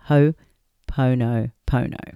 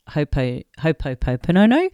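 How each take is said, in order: First: No extra syllables are added. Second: Extra P and O syllables are added. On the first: The speaker calls it right. "but it's Ho'oponopono" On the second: The speaker calls it wrong. "like an added heaps of P and O's"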